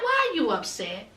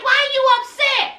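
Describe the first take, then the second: First: Soft, low imitation of him; low offhand question. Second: High-pitched imitation of exasperation; exasperated question. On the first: Man to upset girlfriend outside, low offhand question. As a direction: ask it casually, voice dropped. First acted take of his question. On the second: Man answering girlfriend's complaint, exasperated question. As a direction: push the question up high, mock impatience. Second, heightened take of his question.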